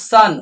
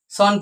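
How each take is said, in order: First: সান with an open "ah" vowel; correct সান. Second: সন with a rounded "aw" vowel; mispronounced সন. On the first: Teacher models the right word for students, open-vowelled সান. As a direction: say সান as "saan", not "sawn". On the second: Teacher warning students off the mistake, rounded-vowel সন. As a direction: say সন wrongly as "sawn". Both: Shown as a demonstration. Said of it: "সন কিন্তু নয়".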